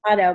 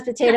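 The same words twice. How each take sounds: First: Potato said as "po-TAH-to"; broad-A pronunciation. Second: Potato said as "po-TAY-to"; long-A pronunciation. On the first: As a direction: say potato with an ah in the middle. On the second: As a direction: say potato with an ay in the middle. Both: Shown as a demonstration. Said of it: "it's one of those potato".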